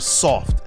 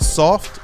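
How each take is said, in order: First: The word has a drawn-out 'aw' vowel. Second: The word has a plain, short vowel. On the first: A mocking, extra-weak version of the word. "S A W F T" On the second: The usual word for weak. "S O F T"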